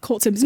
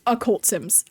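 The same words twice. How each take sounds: First: Said in the usual way. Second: "occult" said with its opening vowel before "cult"; clarifying "occult". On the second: Shown as a demonstration. Streamer correcting what chat heard, clarifying "occult" with its first vowel. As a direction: sound the first syllable of "occult" to set it apart from "cult". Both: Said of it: "No, like, occult sims".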